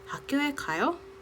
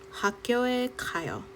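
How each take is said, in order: First: The voice rises at the end. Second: The voice falls or stays level at the end. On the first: It asks whether someone is going to school. "raise intonation at the end" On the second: It states that one is going to school. "normal sentence"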